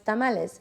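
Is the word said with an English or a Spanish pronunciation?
Spanish. It is said with a Spanish-style pronunciation. The speaker calls it right. "the right way to say it"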